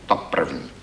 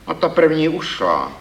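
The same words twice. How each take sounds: First: Said in the usual way. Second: Stern. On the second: Acted. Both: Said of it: "pravil jsem přísně".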